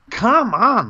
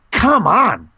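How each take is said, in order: First: Stunned delight; disbelieving. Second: Can't believe it, excited; disbelieving. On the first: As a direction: Come on even higher, drawn out in disbelief. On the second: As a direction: come on pitched much higher and louder. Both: Real, not acted. Disbelief fan listens.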